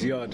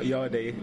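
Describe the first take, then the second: First: The name ends on the d sound. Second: The name ends with an extra vowel sound. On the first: The speaker calls it right. "It's a silent E. It's Yard" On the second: The speaker calls it wrong. "It's a silent E. It's not Yardy"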